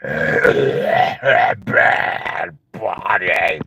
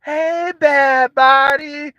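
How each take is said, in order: First: Very low, voiceless rasping shout; croaking smoker yell; raspy smoker voice. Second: Higher, slow, lilting greeting; sing-song hello; sweet old voice. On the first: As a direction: bark it with ruined lungs. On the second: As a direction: croon it like a former singer. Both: Retold or imitated. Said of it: "they'll be like".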